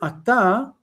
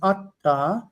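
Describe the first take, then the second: First: The stress is on the last syllable. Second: The stress is on the first syllable.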